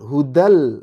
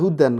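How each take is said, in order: First: The final n merges into an l sound. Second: The final n is clearly pronounced. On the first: The speaker calls it right. "Hudal langsung melebur ke uh, lam" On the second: The speaker calls it wrong. "nggak boleh dibaca hudan"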